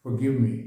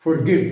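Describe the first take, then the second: First: Forgive with silent R and O as a schwa; R dropped, O reduced. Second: Forgive with the R fully sounded, louder; wrong pronunciation. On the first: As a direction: say Forgive as "fuh-GIV", no R. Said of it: "आर नहीं बोल रहा, ओ को अ बोल रहा हूँ।". (Forgive में आर चुप, ओ को अ बोलते हुए) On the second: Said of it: "इनका प्रोनंसिएशन गलत है।". (forgive में आर पूरा बोलते हुए गलत उच्चारण) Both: Shown as a demonstration.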